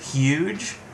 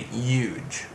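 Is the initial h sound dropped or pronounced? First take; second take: pronounced; dropped. First: The word begins with a clear h sound. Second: The word begins without any h sound. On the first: The speaker calls it right. "I'll pronounce it correctly now" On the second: The speaker calls it wrong. "I just ignore the H"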